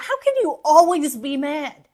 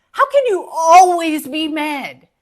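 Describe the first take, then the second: First: Said in the usual way. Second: Louder, pressing exasperation; exasperated loud repeat. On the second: Acted. Scolding friends who are always mad, loud exasperated repeat. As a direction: demand it again, fed up.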